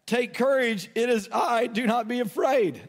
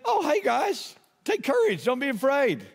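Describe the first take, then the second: First: Measured scripture reading of Jesus' reply; reading Jesus' words. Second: Breezy, much higher, like greeting buddies; casual friendly Jesus. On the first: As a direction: read his words steadily, a touch raised. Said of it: "he spoke to them and said". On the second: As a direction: toss it off lightly, higher pitch. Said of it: "and Jesus said". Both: Retold or imitated.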